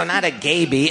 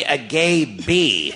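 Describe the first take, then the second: First: Said in the usual way. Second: "a gay bee" stretched very slowly; drawn-out emphasis. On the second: Retold or imitated. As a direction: linger on each word of "a gay bee". Corrects by drawing out the phrase.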